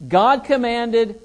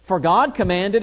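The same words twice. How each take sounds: First: GOD lifted high and louder, slow; slow God commanded, weight on God; stress on GOD. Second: Said in the usual way. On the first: Shown as a demonstration. Teacher setting God's command against tradition, stressing God. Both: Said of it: "do you see the difference?".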